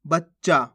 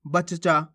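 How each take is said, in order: First: बच्चा as bach-chaa in one go; doubled च in बच्चा; half-letter pronunciation. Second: बच्चा with both च sounded apart; full-letter pronunciation. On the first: Teacher shows how we read it, बच्चा with half च. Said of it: "ये कैसे पढ़ेंगे अपन". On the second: Teacher shows the contrast, बच्चा pulled apart. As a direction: separate the two च in बच्चा. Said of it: "ये क्या होगा". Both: Shown as a demonstration.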